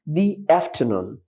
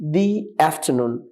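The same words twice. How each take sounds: First: 'The' is said with a long 'ee' vowel. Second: 'The' is said with a long 'ee' vowel.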